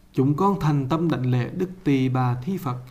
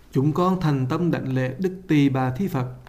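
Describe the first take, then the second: Both takes have the same delivery.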